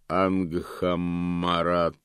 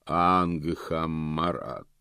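First: Slow, booming voice of Death; гулкий голос Смерти. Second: Slow, hollow booming call; гулкий голос. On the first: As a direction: call the name slowly and hollowly. (гулкий, медленный зов Смерти) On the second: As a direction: Death calling the name, drawn out. (гулкий, протяжный голос Смерти) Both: A narrator's reading. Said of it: "повторил гулкий голос".

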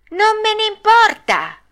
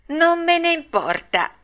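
First: Very high, loud bratty squeal; escalated defiance. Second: High-pitched bratty retort; defiant. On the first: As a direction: shriek the retort like a puppet in a tantrum. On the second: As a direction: brush the warning off like a stubborn puppet. Pinocchio defies the fairy. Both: Acted.

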